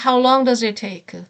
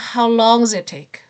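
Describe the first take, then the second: First: Every word, including does, is fully pronounced. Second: The word does is reduced and barely heard. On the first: "앞에서는 how long does it take? 다 발음을 해주는데" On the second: "does에서 the 발음이 안 들려요. 그냥 how long does it take? 이렇게 들려요"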